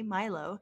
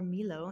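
First: The name is pronounced the English way. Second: The name is pronounced the Spanish way.

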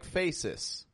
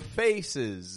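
First: The ending is voiceless, like an s sound. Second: The ending is voiced, like a z sound. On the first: The speaker calls it wrong. "they'll say more like faces" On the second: The speaker calls it right. "Or faces"

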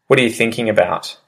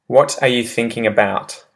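First: The words are run together and reduced, quickly. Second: Every word is said fully and separately. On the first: "I'll repeat the pronunciation shift one" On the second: "I say the proper English phrase"

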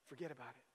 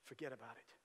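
The two takes are said the same way.

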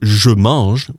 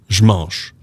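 First: The 'je' is said as a full syllable. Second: The 'je' is cut short before 'mange'. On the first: The speaker calls it wrong. "it's a bit of a mouthful" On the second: The speaker calls it right. "we're going to make a little modification"

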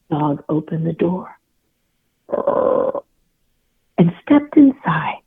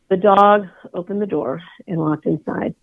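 First: It is read with building suspense. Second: It is read flatly, without suspense.

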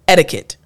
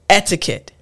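First: It is said quickly with the t sounding like d. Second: It is said carefully with a clear t sound.

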